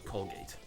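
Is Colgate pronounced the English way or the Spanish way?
English. The word has an English pronunciation.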